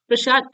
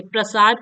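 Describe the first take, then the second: First: प्रसाद said as "prashad", with sh; wrong form. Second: प्रसाद with a plain dental s in the middle; correct form. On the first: Teacher showing children's spelling slip, wrong form with sh. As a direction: swap the s of प्रसाद for a sh. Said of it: "प्रसाद ऐसे नहीं लिखा जाता". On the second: Teacher showing students the correct word, correct form with s. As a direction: say प्रसाद with "sa", not "sha". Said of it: "प्रसाद ऐसे लिखा जाता है". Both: Shown as a demonstration.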